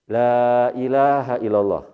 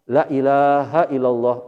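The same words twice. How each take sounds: First: The vowel in 'la' is held long. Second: The vowel in 'la' is cut short. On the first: There is no god but Allah. The speaker calls it right. "Seperti mengucap ini" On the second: Truly there is a god besides Allah. The speaker calls it wrong. "itu benar-benar ada Tuhan selain Allah"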